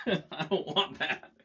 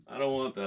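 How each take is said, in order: First: Laughing. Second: Said in the usual way. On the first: Real, not acted. Giggling while rejecting an idea.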